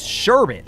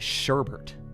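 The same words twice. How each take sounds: First: The second syllable has no extra R sound. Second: The second syllable has an extra R sound. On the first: The speaker calls it right. "I feel like that's the correct pronunciation" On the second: The speaker calls it wrong. "Like there was an R in there"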